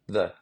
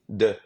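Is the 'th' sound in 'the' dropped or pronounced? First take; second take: pronounced; dropped. First: The word is said with the 'th' sound. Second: The word is said without the 'th' sound. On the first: This is how native English speakers say it. The speaker calls it right. "not the" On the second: This is how French speakers say it. The speaker calls it wrong. "for us, if we don't speak English, we're gonna say the"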